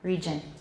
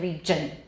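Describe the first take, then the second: The two takes are said the same way.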